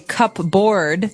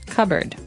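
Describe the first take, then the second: First: It is said like the words cup and board. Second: It is said reduced, without cup and board. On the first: The speaker calls it wrong. "you might want to say cupboard because it's cup, C U P B O A R D. That's not right" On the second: The speaker calls it right. "the correct pronunciation is"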